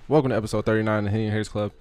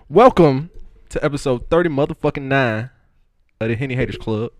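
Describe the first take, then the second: First: It is said flat, with little energy. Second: It is said lively, with lots of energy.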